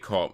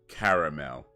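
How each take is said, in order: First: The middle vowel is dropped, giving two syllables. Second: The middle vowel is pronounced, giving three syllables. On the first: This is how it is said in America. "But you say caramel. Is that is that say you just completely miss out the whole second A" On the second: This is how it is said in the United Kingdom. "because we say caramel"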